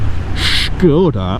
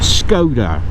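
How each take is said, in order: First: The word begins with a 'sh' sound. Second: The word begins with a plain 's' sound. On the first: It mimics the advert's corrected pronunciation. The speaker calls it wrong. "it's no, it's Skoda" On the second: It is the usual local pronunciation. The speaker calls it right. "That's how we say it"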